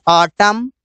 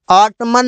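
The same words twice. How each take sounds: First: ऑटम ending on m, no n sound; ऑटम said as otum, silent n; correct pronunciation. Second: ऑटमन with the final n sounded; ऑटमन said as otmun, n spoken; wrong pronunciation. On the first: (ऑटम, आख़िर का एन चुप) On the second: (ऑटमन, एन बोलकर गलत तरीका) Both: Shown as a demonstration. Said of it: "ऑटमन नहीं बोलते".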